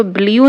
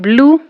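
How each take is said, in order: First: "ब्लियो" with an extra ee-glide after bl; mispronunciation demo. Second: "ब्लू" said as one syllable, like the colour blue; correct pronunciation. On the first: Teacher warning students off a misreading, mispronounced "ब्लियो" with a y-glide. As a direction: say blew wrongly as "ब्लियो", blee-yo. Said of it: "इसको ब्लियो नहीं पढ़ते हो". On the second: Teacher showing how blew is read, correct "ब्लू" with oo. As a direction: say "ब्लू" with a plain oo, no y-glide. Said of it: "इसको ब्लियो नहीं पढ़ते हो, जैसे ब्लू होता है". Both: Shown as a demonstration.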